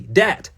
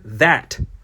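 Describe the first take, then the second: First: The word begins with a hard d sound. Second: The word begins with a soft th sound. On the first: "it morphed into D A T" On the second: "the word that"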